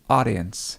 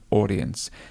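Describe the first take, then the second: First: An open first vowel and a soft D. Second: A rounded first vowel and a clearer D. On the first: "so that would be the American English pronunciation" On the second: "Whereas a British English would be auction and audience"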